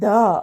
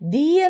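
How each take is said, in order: First: The word ends in a short uh vowel. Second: The word ends in a long ee vowel. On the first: A consonant sound follows the word. "അല്ലാതെ ഏത് അക്ഷരം വന്നു കഴിഞ്ഞാലും" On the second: A vowel sound follows the word. "A E I O U എന്ന് വന്നു കഴിഞ്ഞാൽ ... ദി എന്ന് വായിക്കും"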